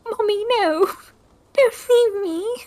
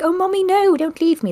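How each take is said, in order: First: Put-on high, slow, wailing child's plea; childlike cry, pitched up high. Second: Put-on high wailing little-kid plea; childlike plea, pitched up high; pretend crying child. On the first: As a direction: wail like a lost little kid. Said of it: "a child crying". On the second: Shown as a demonstration. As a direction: beg like an abandoned child. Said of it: "Maybe go like".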